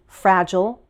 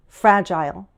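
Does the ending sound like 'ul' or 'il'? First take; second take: ul; il. First: The ending is a schwa with dark L. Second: The ending is a long I with dark L.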